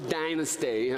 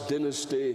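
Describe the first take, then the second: First: It is said in an American way. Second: It is said in a non-American way. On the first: The speaker calls it wrong. "as opposed to dynasty" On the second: The speaker calls it right. "I like people, how you say dynasty"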